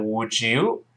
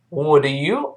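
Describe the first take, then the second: First: "would you" run together as "woud-ju"; linked would you. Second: "Would you" with the d and y kept apart; unlinked would you. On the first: Teacher shows learners "would you" linked with a j sound. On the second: Teacher contrasts forms for learners, "Would you" unlinked. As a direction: say "Would you" as two separate words. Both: Shown as a demonstration. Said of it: "还是变成would you".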